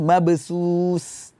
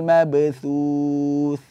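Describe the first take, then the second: First: The consonant is a sharp hissed s sound. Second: The consonant is a soft lisped th sound. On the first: The speaker calls it wrong. "akan uh, berbunyi mabsus. Tidak" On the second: The speaker calls it right. "ada huruf tha"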